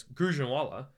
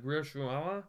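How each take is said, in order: First: Gujranwala said as the right city name, sure and even; correct Gujranwala. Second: Gujranwala? garbled to roshala, a rising, unsure guess; fumbling Gujranwala? with a questioning rise; unsure mispronunciation. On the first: Shown as a demonstration. Podcaster names the Pakistani city correctly, said smoothly. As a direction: Gujranwala spoken smoothly as the locals say it. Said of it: "I didn't know how to say the city". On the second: Retold or imitated. Traveler guessing the city name to a soldier, unsure rising tone. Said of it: "I don't know how to say this".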